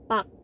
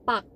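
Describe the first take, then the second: Both takes have the same delivery.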